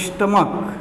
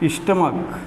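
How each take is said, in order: The two takes are said the same way.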